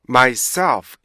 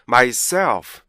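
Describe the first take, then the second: Both takes have the same delivery.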